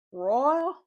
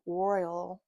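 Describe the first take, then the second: First: "royal" in a loud, rising Southern-like drawl; mock Southern accent on "royal", higher and louder; imitated Southern-like accent. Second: Said in the usual way. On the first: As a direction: call out "royal" like Southern family, pitch sweeping up. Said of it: "this accent". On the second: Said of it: "call him or pronounce his name".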